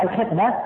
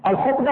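First: "الخطبة" with i after the kh: al-khitba; كسرة تحت الخاء. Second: "الخطبة" with u after the kh: al-khutba; ضمة على الخاء. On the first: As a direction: say "الخطبة" as al-khitba, kasra under خ. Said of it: "أما بالكسر". ("الخطبة" بكسر الخاء) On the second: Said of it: "هذه بضم الخاء". ("الخطبة" بضم الخاء) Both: Shown as a demonstration.

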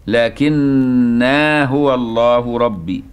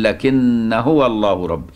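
First: "لكنا" said lakinnā with the long alif kept, very slow; Ibn Amir reading. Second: "لكن" said lakin with no long alif, joined slowly to "هو"; alif dropped. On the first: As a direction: stretch the final alif of "لكنا" in a slow recitation. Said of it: "ومثل قراءة ابن عامر". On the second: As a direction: drop the alif of "لكن" and flow straight into "هو". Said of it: "تقول". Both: Shown as a demonstration.

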